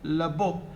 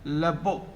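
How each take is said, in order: No difference in how they are said.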